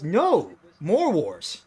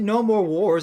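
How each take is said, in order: First: There is a pause after no. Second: It is said smoothly with no pause after no.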